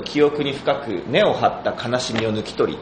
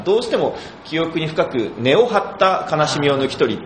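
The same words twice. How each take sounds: First: Said in the usual way. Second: 記憶に深く根を張った悲しみを抜き取り said slowly in Kansai intonation; 関西イントネーション; Kansai intonation slip. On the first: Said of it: "っていうセリフがあるんですけど". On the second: Retold or imitated. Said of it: "ってなっちゃって".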